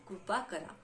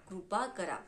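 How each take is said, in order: No difference in how they are said.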